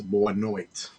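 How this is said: It is said in a mainland Portuguese accent. "good night in the mainland is"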